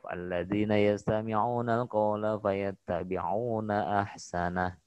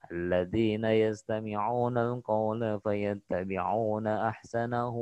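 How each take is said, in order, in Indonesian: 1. Berhenti di ahsanah tanpa vokal akhir yang dipanjangkan. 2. Berlanjut dengan vokal akhir yang dipanjangkan pada ahsanahu. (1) "Kalau dibaca wakof, ... Berhenti, tidak matsilah" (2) "Tapi kalau disambung, ... Bacanya panjang"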